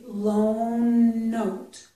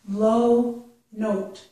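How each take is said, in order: First: One long n sound joins the two words. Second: No n sound is heard before note. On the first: The speaker calls it right. "You can make one long n sound for each of these" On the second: The speaker calls it wrong. "it's not enough to just say low note"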